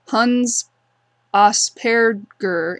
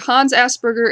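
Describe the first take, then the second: First: The name is said with German pronunciation. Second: The name is said with English pronunciation.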